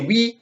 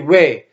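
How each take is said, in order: First: The word is said in its careful standard form. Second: The word is said loosely, sounding like yeah. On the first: A plain, standard yes. "you don't say oui" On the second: A casual yeah in everyday conversation. "oui is kind of like yeah. So it's like a lazy way of saying oui"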